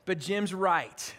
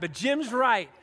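First: Grudging admission. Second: Said in the usual way. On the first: Real, not acted. Pastor grudgingly admitting his friend was right, lower and slow. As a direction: concede "Jim's right" through gritted reluctance. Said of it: "this is hard for me to admit". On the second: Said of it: "it's hard for me to admit that".

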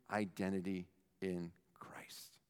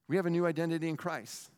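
First: Whisper. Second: Said in the usual way. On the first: Real, not acted. Dramatic whisper.

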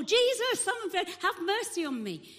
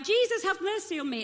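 First: Very high, loud acted shout; shouting more. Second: Acted loud, high plea; shouting out. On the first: Blind beggar refusing to be hushed, shouting more. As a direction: escalate into an urgent yell. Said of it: "So he shouts more". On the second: Blind man calling to Jesus through the crowd, shouting out. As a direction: shout it out as the beggar. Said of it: "this guy's shouting out".

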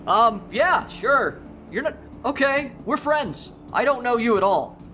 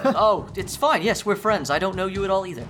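First: High, hesitant voice of a confused man; timid agreement. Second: High, meek voice holding back a laugh; timid agreement. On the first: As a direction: go along meekly while unsure. Confused John answers Evan. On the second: Confused John answers again. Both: Acted.

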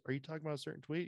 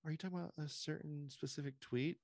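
First: High, rushed, evasive put-on question; fast mocking press secretary. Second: High, evasive mock voice with a rising question; mocking press secretary. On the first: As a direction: rattle off the dodge in a high mock voice. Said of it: "And she goes". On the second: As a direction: play dumb in a high put-on voice. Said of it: "and she goes".

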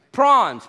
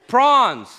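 First: Prawns repeated firmly; Australian word again. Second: Prawns said firmly as the Aussie word; Australian word. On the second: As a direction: call it Prawns, shouting it out. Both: Shown as a demonstration.

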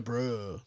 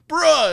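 First: Low, soft mocking "Bruh". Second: Put-on higher, louder teen "Bruh"; a kid's casual "Bruh"; kid saying bruh. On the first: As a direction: echo "Bruh" back low and dry. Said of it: "in, like, a mocking way". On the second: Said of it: "he'll go".

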